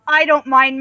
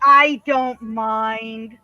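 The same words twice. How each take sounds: First: Said in the usual way. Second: Very slow, stretched-out reassurance; drawn out. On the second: Real, not acted. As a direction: stretch every word of I DON'T MIND. Cooing about the pet, then repeats plainly.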